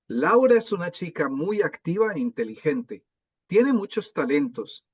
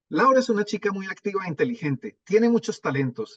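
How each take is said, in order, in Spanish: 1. Se lee a un ritmo normal, más lento. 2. Se lee a un ritmo más rápido. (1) "una lectura normal" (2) "vamos a tratar de leer más rápido"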